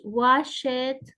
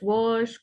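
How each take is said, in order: First: The ending is an added syllable. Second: The ending is a short T sound.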